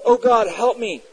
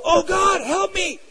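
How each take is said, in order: First: Higher-pitched, mildly raised plea; retold cry for help. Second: Much higher, imitated panicked yelp for help; spontaneous cry out. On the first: Unbelievers calling on God in times of trouble, mild cry out. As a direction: call out to God, without a full shout. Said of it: "they will cry out". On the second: Atheist student as his lab equipment breaks, high cry out. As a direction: blurt out a high-pitched desperate plea. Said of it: "he cried out".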